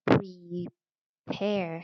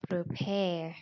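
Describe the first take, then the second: First: Prepare said slowly as PREE-pair; mispronounced prepare. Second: Prepare said as pruh-PAIR; reduced first vowel. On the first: Teacher shows students the wrong reading, prepare as pree-pair. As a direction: stretch prepare with a long ee in pre. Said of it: "บ่ได้อ่านว่า prepare". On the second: Teacher models the correct reading, prepare as pruh-pair. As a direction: say prepare with a short, neutral pre. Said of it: "อ่านว่า pre". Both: Shown as a demonstration.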